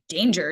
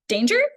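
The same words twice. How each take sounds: First: The pitch falls at the end, like a statement. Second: The pitch rises at the end, like a question. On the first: The threat is certain. The speaker calls it right. "I should say danger, danger" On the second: The threat is uncertain. The speaker calls it wrong. "it doesn't sound like danger with a question mark"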